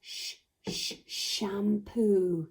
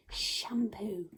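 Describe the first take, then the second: First: Two hushed "Sh-" onsets, then "shampoo"; sounding out sh. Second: Said in the usual way. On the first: Shown as a demonstration. Teacher helping children hear the sound, "Sh-, sh-" then "shampoo". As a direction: separate the "Sh-" twice before the whole "shampoo". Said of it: "Can you hear the sound in sh". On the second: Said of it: "Can you hear the sound".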